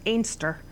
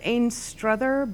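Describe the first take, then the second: First: The name is shortened to two syllables. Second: The name is said in full, three syllables. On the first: This is how locals say the name. "the way they pronounce it in Scotland is Ainster" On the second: This is how the name is written. "it's spelled Ainstruther"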